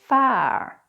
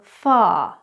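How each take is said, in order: First: The R sound is pronounced. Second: The R sound is silent. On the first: "the R's are always pronounced" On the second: "the or is actually rarely pronounced"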